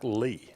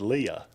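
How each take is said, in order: First: The name is said with one syllable. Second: The name is said with two syllables. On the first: The speaker calls it right. "it's it's Clark Lee" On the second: The speaker calls it wrong. "so I said Leah"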